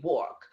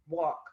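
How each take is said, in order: First: The word is said in a New York accent. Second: The word is said in a general accent. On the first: "New Yorkers, we walk" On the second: "we don't walk"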